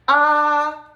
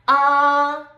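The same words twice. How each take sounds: First: The pitch stays high and level. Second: The same.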